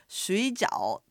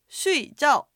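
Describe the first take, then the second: First: It has the tone pattern of the dumpling word. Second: It has the tone pattern of the sleep word. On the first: Boiled dumplings. "中国語でシュイジャオと言って水餃子なんですが" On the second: To sleep. "アクセントを違ってシュイジャオというと睡眠、寝るっていう意味"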